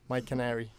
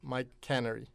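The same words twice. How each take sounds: First: The stress is on the second syllable. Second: The stress is on the first syllable. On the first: It refers to the bird. The speaker calls it right. "Did I say that right?" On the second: It sounds like a place for canning goods. The speaker calls it wrong. "I used to say my canary, which I guess is wrong"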